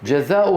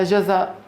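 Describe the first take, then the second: First: جزاء with its hamza voiced as "u", jazaa-u; continued reading. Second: جزاء ending on a bare glottal stop; long aa in جزاء, then stop dead on the hamza; stopping form. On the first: Teacher reads the word as written, جزاء ending in u. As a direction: run جزاء on with a final u vowel. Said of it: "انظروا كيف كتبت". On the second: Teacher shows how we stop on it, جزاء without final vowel. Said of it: "ولكننا نقف عليها". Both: Shown as a demonstration.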